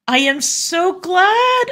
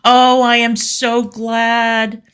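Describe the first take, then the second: First: Much higher, slow sarcastic squeal of delight; mock squeal. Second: Slow drawn-out sarcastic delight, higher; mock gushing. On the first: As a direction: squeal it like a gushing fan. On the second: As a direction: stretch the oh, fake delight. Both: Mock gushing reply to fan.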